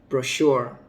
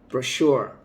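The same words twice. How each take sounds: No difference in how they are said.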